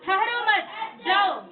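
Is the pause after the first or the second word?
second. The pause comes after the second word.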